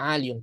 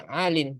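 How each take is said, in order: First: The word ends with a full -iyun. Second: The word ends with a short -in. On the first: This is the underlying original form. The speaker calls it wrong. "benar harus asalnya aliyun" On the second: This is how it is actually pronounced. The speaker calls it right. "Jadi alin"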